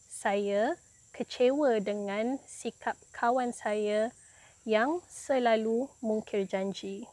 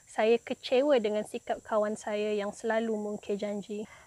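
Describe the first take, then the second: First: The sentence is spoken slowly and carefully. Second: The sentence is spoken quickly.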